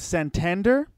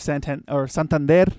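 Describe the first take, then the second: First: The name is said with an English pronunciation. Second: The name is said with a Spanish pronunciation. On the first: The speaker calls it wrong. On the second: The speaker calls it right.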